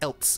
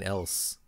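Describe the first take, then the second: First: It ends with an added t sound. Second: It ends with a plain s sound. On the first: "Why do they add a T to else? They're like else in here" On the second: "Instead of just saying else"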